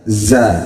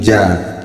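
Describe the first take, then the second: First: It begins with a buzzing z sound. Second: It begins with a j sound. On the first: The speaker calls it right. "hampir mirip kepada huruf zai" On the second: The speaker calls it wrong. "Kalau orang Jawa Barat bilangnya za itu ja"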